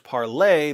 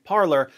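First: "Parler" said French-style as par-LAY; French pronunciation. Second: "Parler" said as English PAR-ler; American pronunciation. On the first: Explaining the app's original name, "Parler" pronounced the French way. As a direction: end "Parler" on a stressed "lay". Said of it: "It was originally pronounced". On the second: Telling what everyone called the app, "Parler" pronounced the American way. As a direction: say "Parler" like the word parlor. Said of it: "the American pronunciation stuck". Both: Shown as a demonstration.

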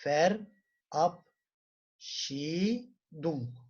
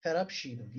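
First: Verabschiedung very slowly, every syllable stretched; read-along model. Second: Said in the usual way. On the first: Shown as a demonstration. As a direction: draw out Verabschiedung for the class to repeat. (Verabschiedung çok yavaş, birlikte okuma için) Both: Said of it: "okuyalım birlikte".

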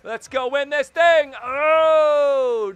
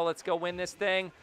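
First: Much higher, much louder rallying yell; hyped shout. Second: Said in the usual way. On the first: Real, not acted. Gamer rallying his team for the final seconds, hyped shout. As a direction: belt it out like a war cry.

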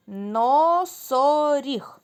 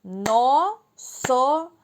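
First: Slow, drawn-out word; syllable by syllable. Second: Clapped syllables. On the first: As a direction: stretch носоріг into its syllables. (повільно, по складах) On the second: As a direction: clap out Носоріг slowly. (повільно, по складах, з плесканням) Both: Shown as a demonstration. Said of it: "Плескаємо в долоні".

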